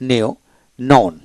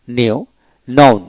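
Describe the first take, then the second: No difference in how they are said.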